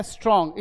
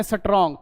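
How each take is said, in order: First: स्ट्रॉन्ग with S running straight into TR; no vowel between S and T in स्ट्रॉन्ग; correct pronunciation demo. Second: Extra vowel after S in स्ट्रॉन्ग, "suh-trong"; wrong pronunciation demo. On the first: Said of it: "actually ये है स्ट्रॉन्ग". (स्ट्रॉन्ग में "स" आधा बोलें) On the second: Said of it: "स्ट्रॉन्ग नहीं है ये". (स्ट्रॉन्ग को "सट्रॉन्ग" बोलें) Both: Shown as a demonstration.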